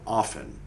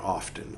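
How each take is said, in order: First: The T in the middle is silent. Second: The T in the middle is pronounced. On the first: The speaker calls it right. "That's how it's pronounced" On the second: The speaker calls it wrong. "not often"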